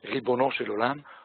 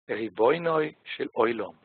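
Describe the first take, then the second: First: Ribono is said with plain o vowels. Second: Ribono is said with oi diphthongs. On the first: "eine bestimmte Art der Aussprache gewählt, die eher eigentlich von der sphardischen Seite" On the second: This is the traditional pronunciation of Yiddish-speaking communities. "in vielen Gemeinden ist die Aussprache traditionell ein bisschen anders"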